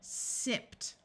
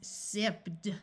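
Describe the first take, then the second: First: The ending is pronounced as a T sound. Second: The ending is pronounced as a D sound. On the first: The speaker calls it right. "So ed is pronounced as T" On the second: The speaker calls it wrong. "if I tried to pronounce this as sipped, doing the D sound after the P sound is extremely difficult"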